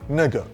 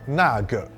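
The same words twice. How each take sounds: First: The sounds are slurred together loosely. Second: Each sound is pronounced fully and carefully. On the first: "people slur when they talk casually" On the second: "When spoken very properly"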